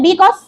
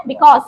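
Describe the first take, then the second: First: Because with the first syllable stressed, as a question; because, wrongly stressed at the start. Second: Because with the second syllable stressed; Because, weight on the final syllable; correct stress. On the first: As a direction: lean on the be of because. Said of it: "No।". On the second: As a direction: keep Be light and stress cause in Because. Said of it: "So you get the stress here". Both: Shown as a demonstration.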